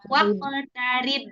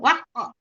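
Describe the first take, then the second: First: The voice flows smoothly from the k onward. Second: The voice brakes with a catch after the k. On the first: The speaker calls it right. "Alirkan saja" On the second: The speaker calls it wrong. "tapi nggak boleh direm"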